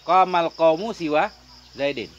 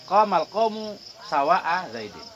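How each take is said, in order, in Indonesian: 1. Kata tengah itu pendek, tanpa hamzah. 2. Kata tengah dipanjangkan, dengan hamzah.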